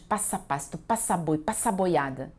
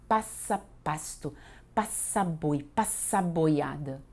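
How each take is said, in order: First: The lines are recited at a normal pace. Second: The lines are recited more slowly.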